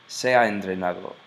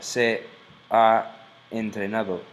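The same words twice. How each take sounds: First: The words run together smoothly without a break. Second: A glottal stop separates the words. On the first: The speaker calls it right. "It's like very fluid, rhythmic" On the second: The speaker calls it wrong. "it's called a glottal stop"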